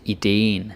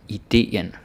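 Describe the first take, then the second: First: Ideen squashed into one syllable; the funky slangy ideen; wrong one-syllable ideen. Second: Ideen split cleanly into i-de-en; correct two syllables. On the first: To the student, what not to say: ideen slurred to one syllable. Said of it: "don't say ideen". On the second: To the student, the proper way: ideen in full syllables. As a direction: say ideen with both e's. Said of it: "it's two syllables". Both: Shown as a demonstration.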